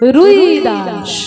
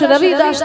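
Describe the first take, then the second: First: The first name is said 'Rui' with a short 'u'. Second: The first name has a clear 'v' sound. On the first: This is the form Bengalis use. The speaker calls it wrong. "বাঙালিরা একটা রয় হস্য লাগিয়ে দিয়েছে" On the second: This is the name as originally written. The speaker calls it right. "তার নাম হচ্ছে রবি দাস"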